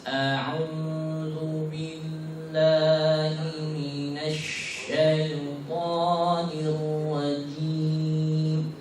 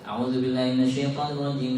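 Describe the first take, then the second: First: It is recited very slowly, each letter distinct. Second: It is recited quickly, with the words run together. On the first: "lambat sekali. Setiap hurufnya sangat jelas" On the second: "Hadar itu bacanya cepat dan cenderung mewasal"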